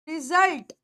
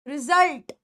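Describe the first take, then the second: Both takes have the same delivery.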